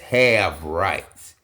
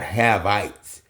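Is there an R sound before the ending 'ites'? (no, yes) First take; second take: yes; no. First: It is said with an R sound. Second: It is said without an R sound. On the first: The speaker calls it right. "it's have rights" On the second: The speaker calls it wrong. "have rights is not Havites"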